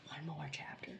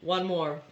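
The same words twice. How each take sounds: First: Soft whisper to yourself. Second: Said in the usual way. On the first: Real, not acted. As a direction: whisper it like a secret promise. Whispers to herself.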